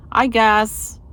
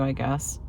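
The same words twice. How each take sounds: First: "I guess" said again higher and louder, a resigned outburst; louder repeat. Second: Said in the usual way. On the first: Real, not acted. Dreading cooking dinner, she repeats it louder and higher. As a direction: punch "I guess" up, half-exasperated.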